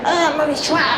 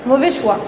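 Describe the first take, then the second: First: It is said in a heated, emotional tone. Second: It is said in a calm, matter-of-fact tone. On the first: The emotion of the other is stirred up. The speaker calls it wrong. "je ne vais pas lui dire" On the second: A neutral mental consequence is given. The speaker calls it right. "je lui dis, bah"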